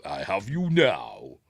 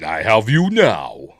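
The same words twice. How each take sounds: First: Slow, menacing mock villain line; lightly voiced gloating Vader. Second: Slow, louder menacing mock villain; lightly voiced gloating Vader. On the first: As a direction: gloat it slowly as the Dark Lord. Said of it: "there we go". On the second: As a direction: drawl it like a gloating Dark Lord. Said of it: "so he goes".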